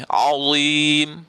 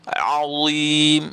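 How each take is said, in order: The two takes are said the same way.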